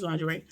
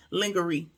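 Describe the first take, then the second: First: "lingerie" said as LAHN-juh-ray; soft j in "lingerie", ending in ray; standard pronunciation. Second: "lingerie" said as LING-guh-ree; hard g in "lingerie", ending in ree; playful mispronunciation. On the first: Correcting herself to the audience, "lingerie" said as lahn-juh-ray. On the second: Describing Mercedes' outfit, "lingerie" said jokingly as ling-guh-ree. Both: Shown as a demonstration. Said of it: "I know it's lingerie".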